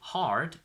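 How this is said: The R after the vowel is pronounced.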